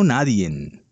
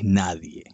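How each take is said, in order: First: The word ends with an added n sound. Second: The word ends cleanly without an n sound. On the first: The speaker calls it wrong. "No le pongas esa N al final" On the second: The speaker calls it right. "Es nadie"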